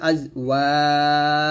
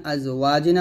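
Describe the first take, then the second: First: "ওয়াজ" with a very long held আ, final জ bounced; long madd at stop. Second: Said in the usual way. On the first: Shown as a demonstration. Teacher shows learners how to stop, "ওয়াজ" drawn out with bounced জ. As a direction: stretch the vowel in "ওয়াজ", then echo the জ. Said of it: "এরকম". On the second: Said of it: "থামলো হবে".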